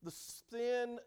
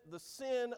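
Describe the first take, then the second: First: "The sin," hit higher and louder, then a pause; emphatic. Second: Said in the usual way. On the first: Acted. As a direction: land "sin" hard as a warning. Preacher repeats for emphasis.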